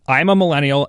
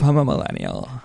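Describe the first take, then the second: First: It is read in a plain, normal voice. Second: It is said in a creaky put-on voice.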